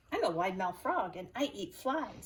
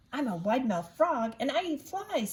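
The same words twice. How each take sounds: First: Said in the usual way. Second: Frog voice, louder. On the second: A narrator's reading. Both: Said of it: "said the wide mouth frog".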